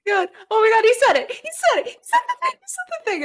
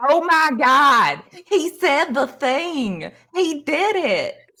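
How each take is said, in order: First: Very high-pitched excited squealing; fan squeals. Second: Slow, high, hammed-up Southern drawl; excited fan in a badly faked Southern twang; horrible Southern accent. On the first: Acted. Fans hear the idol's catchphrase, squealing with excitement. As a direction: squeal it over and over like thrilled fans. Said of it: "there's, like, some squeals". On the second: One fan imitates the idol's catchphrase, horrible Southern accent. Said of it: "puts on this very horrible Southern accent".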